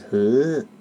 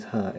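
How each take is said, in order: First: "hurt" drawn out slowly, imitating her vowel; imitated pronunciation. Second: Said in the usual way. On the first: Shown as a demonstration. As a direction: stretch the word "hurt" long and slow. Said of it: "when she says hurt, it goes hurt". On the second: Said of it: "when she says hurt".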